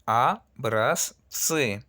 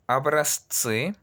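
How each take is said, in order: First: "Abrazzi" drawn out very slowly, clear pause before tsi; very slow demo. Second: "Abrazzi" stretched slowly, a small pause before the ts; slow demo. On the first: Teacher to class, the slowest model of the word. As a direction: stretch every part, a-braz, pause, tsi. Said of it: "Hay que hacer una pequeña pausa". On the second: Teacher to class, slow careful demo word. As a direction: drag it out, a-braz-tsi. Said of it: "escuchen muy bien". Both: Shown as a demonstration.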